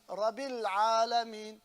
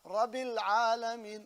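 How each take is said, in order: The two takes are said the same way.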